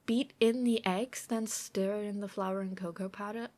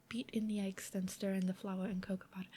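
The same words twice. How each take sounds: First: Said in the usual way. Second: Softer, half-whispered recipe step; half-whispered reread. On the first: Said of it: "reads recipe, rereads later". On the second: Real, not acted. Rereading the recipe to herself while baking, half-whispered. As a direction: murmur the step to yourself while checking. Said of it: "rereads step half-whispered".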